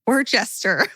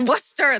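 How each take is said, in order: First: Worcester sounded out as "wor-CHESS-ter"; unsure, mangled Worcester with three syllables; botched attempt at Worcester. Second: Worcester said as "WUSS-ter"; relieved, higher echo of Worcester as "WUSS-ter"; corrected Worcester. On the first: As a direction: say Worcester as spelt, with a "chest" in it. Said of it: "how do you say it?". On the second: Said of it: "that's it". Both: Real, not acted.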